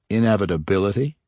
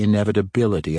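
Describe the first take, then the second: First: Scornful, quick Inevitability? with a rising snort. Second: Said in the usual way. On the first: A narrator's reading. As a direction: toss back Inevitability? with a disbelieving snort. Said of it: "Jarlaxle said with a snort". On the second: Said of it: "Inevitability? Jarlaxle said with a snort".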